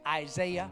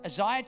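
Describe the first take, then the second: First: The name is said in an American accent. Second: The name is said in a non-American accent.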